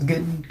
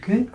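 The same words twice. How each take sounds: First: Said in the usual way. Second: GOOD pitched high and rising like a question; "good" with a steep questioning rise; question intonation. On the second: Shown as a demonstration. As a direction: lift "good" up into an unsure question. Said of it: "Question mark?".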